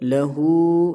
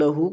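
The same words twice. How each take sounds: First: The final vowel is lengthened by one beat. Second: The final vowel is short, not drawn out. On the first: The speaker calls it right. "एक अलिफ की मकदार खींच कर पढ़ना है" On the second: The speaker calls it wrong. "एक अलिफ की मकदार नहीं खींचते ... जो कि गलत है"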